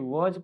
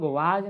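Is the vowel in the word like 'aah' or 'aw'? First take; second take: aw; aah. First: The vowel is a rounded 'aw' sound. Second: The vowel is an open 'aah' sound. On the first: The speaker calls it right. "बल्कि वॉज पढ़ते हैं" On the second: The speaker calls it wrong. "इसको हम लोग वाज नहीं पढ़ते हैं"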